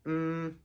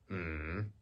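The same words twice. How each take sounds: First: The pitch stays high and level. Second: The pitch dips down and then rises. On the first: "the first tone is high and flat" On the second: "falling and then rising"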